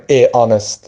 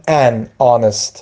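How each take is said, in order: First: "a honest", no n before the vowel; wrong article A. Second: "an honest", linking n into the vowel; AN before honest. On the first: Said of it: "غلطه". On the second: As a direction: say an honest with a silent H. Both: Shown as a demonstration.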